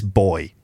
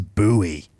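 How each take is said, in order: First: The word is said the British way. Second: The word is said the American way. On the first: The speaker calls it right. "It's boy" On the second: The speaker calls it wrong. "who says buoy? It's ridiculous"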